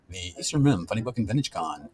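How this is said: It is said in a booming announcer voice.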